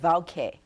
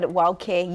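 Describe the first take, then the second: First: The word begins with a V sound. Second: The word begins with a W sound. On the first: "you said vauke" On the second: "I said wauke"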